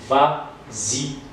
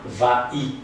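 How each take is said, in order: First: A z sound links the two words. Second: No z sound links the two words. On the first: The speaker calls it right. "on va dire vas-y" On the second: The speaker calls it wrong. "et non pas va-y"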